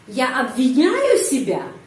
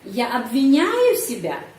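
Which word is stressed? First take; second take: обвиняю; обвиняю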